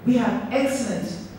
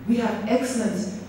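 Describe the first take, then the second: No difference in how they are said.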